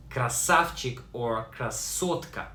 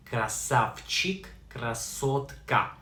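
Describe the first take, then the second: First: Said in the usual way. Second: Красавчик, красотка split into slow syllables; slow pronunciation demo. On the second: Shown as a demonstration. Teacher repeats красавчик and красотка for learners, slowly and distinctly. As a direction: sound out красавчик and красотка piece by piece.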